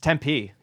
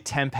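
First: The name ends with a hard 'ee' vowel. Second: The name ends without a hard 'ee' vowel. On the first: The speaker calls it right. "It's Tempe. Literally, it's like a hard E" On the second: The speaker calls it wrong. "A lot of people say Tempe"

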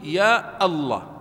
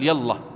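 First: A glottal stop is pronounced before Allah. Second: Allah is linked to ya without a glottal stop. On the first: The speaker calls it right. "وقطع همزته، فتقول يا الله" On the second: The speaker calls it wrong. "ولا تقول يا الله"

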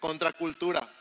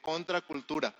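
First: It is said loudly and confidently. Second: It is said at normal volume.

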